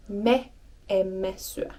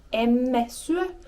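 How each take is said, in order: First: "me emme syö" with the extra "me" stressed and said a little slower; slow and deliberate "me emme syö", stressing "me"; emphatic form. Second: Said in the usual way. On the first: Shown as a demonstration. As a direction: lean on the pronoun "me" in "me emme syö". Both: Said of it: "or for more emphasis".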